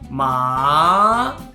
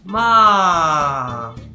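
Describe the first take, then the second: First: The pitch rises from mid to high. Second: The pitch falls from high to low. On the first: "Second tone starts with the pitch that is lower than first tone, and it goes all the way up to first tone" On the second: "Fourth tone starts from first tone and it goes all the way down"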